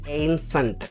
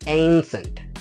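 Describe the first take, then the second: First: The first vowel sounds like the ay in day. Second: The first vowel sounds like the ay in day.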